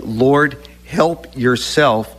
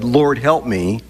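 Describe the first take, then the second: First: "help yourself" drawn out slowly, each word weighted; "help yourself" said slowly and firmly; slow stress on help yourself. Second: Said in the usual way. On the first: Shown as a demonstration. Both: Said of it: "I need to be saying".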